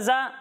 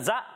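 First: The syllable is said smoothly without an abrupt stop. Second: The syllable is cut off with an abrupt jerk. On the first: The speaker calls it right. "اور اسے پڑھیں گے زا زبر زا" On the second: The speaker calls it wrong. "اس میں جھٹکا نہیں دینا, زا نہیں"

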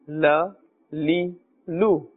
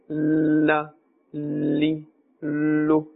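First: The vowels are short and not stretched. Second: The vowels are stretched and drawn out. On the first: The speaker calls it right. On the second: The speaker calls it wrong.

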